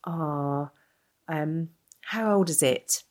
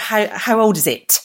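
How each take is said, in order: First: Slow mock-curious question, no extra force; drawn-out prying question from a stranger in a shop; lightly imitated stranger, slow and curious; imitating a nosy stranger. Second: Higher, louder, slow mock of the question; mocking a shop stranger's question, higher and louder; incredulous mock quote. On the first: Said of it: "And she's like". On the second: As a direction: repeat the stranger's question in disbelief. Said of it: "you don't expect someone to sort of".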